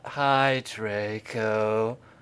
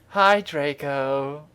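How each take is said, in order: First: It is said in a depressed, gloomy tone. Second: It is said in a plain, upbeat tone.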